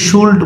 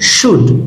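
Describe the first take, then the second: First: The L sound is pronounced in the word. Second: The L sound is silent in the word. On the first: The speaker calls it wrong. "এটাকে অনেকেই শুল্ড বলে, no" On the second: The speaker calls it right. "এলটা এখানে silent"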